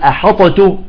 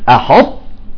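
First: The ṭ is bounced with an echo, sounding heavy. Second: The ṭ glides smoothly into a softly breathed t. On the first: The speaker calls it wrong. "إذا قلقلنا تصبح ثقيلة على النطق" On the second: The speaker calls it right. "ثم أنزل على التاء وأخرجها بهمس بسيط"

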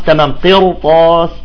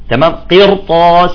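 The two takes are said the same way.

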